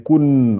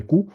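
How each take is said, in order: First: "kun" closed on a held n; added final n. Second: "ku" ending open on the vowel; single vowel ku. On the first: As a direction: sound the n clearly at the end of "kun". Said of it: "on rajoute N E à la fin". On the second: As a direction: say "ku" with no n after it. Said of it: "une seule voyelle, ça ferait ku". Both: Shown as a demonstration.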